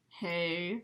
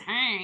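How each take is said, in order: First: It is said in a smooth voice. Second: It is said in a harsh, raspy voice.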